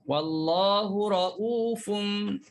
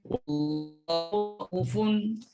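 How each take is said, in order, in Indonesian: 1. Vokal setelah hamzah itu panjang. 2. Vokal setelah hamzah itu pendek. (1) "Kalau kita baca Rauf" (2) "Kalau baca Syu'bah, tanpa waw, macam jalan cepat sikit"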